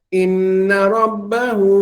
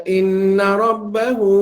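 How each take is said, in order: Both takes have the same delivery.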